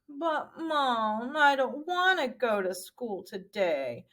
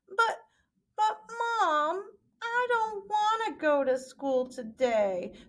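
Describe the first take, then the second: First: It is said in a normal-pitched mopey voice. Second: It is said in a high-pitched female voice.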